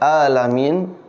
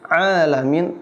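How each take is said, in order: First: It begins with a plain glottal stop. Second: It begins with a throaty, squeezed ain sound. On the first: The Lord of sick people. The speaker calls it wrong. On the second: The Lord of all the worlds. The speaker calls it right.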